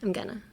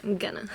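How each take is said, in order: First: It is thrown out lazily, like a tired teenager. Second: The same.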